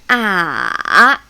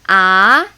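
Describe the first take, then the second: First: The pitch starts low, dips, then rises. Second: The pitch rises like a doubtful question. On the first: "it starts a little lower... and coming down, and rising. So it's down and up" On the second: "I call it doubting tone. Think about you're doubting something. Like really?"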